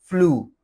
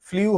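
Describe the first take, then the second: First: The vowel is a plain 'oo'. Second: The vowel glides like 'yoo'. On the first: The speaker calls it right. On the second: The speaker calls it wrong.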